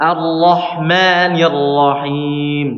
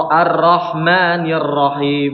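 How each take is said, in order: First: Slow sung "Ar-Rahmanir Rahim" with a full, heavy ra; teacher's correct model recitation; correct thick ra. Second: "Ar-Rahmanir" with a thin, light ra sound; demonstrating the mistaken thin ra; wrong thin ra. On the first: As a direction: chant it with a thick ra as it should be. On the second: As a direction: recite "Ar-Rahmanir Rahim" with the ra made thin by mistake. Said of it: "Ini tipis nih, salah". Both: Shown as a demonstration.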